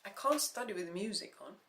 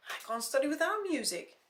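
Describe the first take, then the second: First: Said in the usual way. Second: "without" pushed high and loud; stress on WITHOUT. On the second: Acted. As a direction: hit "without" hard and high.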